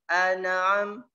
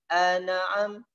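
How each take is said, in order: The two takes are said the same way.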